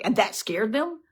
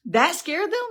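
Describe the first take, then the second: First: Said in the usual way. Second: That scared them pitched far higher, rising at them; emphatic repeat. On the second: Real, not acted. Preacher repeats to the congregation, high emphatic rise.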